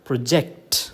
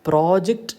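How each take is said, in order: First: The stress is on the second syllable. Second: The stress is on the first syllable. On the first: It is a verb meaning to cast onto a surface. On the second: It is a noun meaning submitted work.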